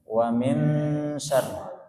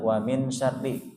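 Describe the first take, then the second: First: The n is held with a nasal hum. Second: The n is clipped short without nasal hum. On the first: The speaker calls it right. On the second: The speaker calls it wrong.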